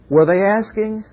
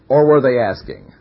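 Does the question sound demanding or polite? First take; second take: polite; demanding. First: It is said gently, as a humble request. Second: It is said forcefully, as a firm demand. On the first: They were humbly requesting, subject to God's will. "Were they saying, would like to have this? Of course that means if it's God's will" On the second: They were really giving an order. "we're making it a request, but it's really an order"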